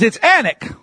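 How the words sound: It is said the Texas way.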